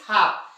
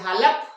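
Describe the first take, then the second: First: The L sound is left out of the word. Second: The L sound is pronounced in the word. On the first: The speaker calls it right. "क्या पढ़ते guys? हाफ" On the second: The speaker calls it wrong. "हालप? Definitely नहीं"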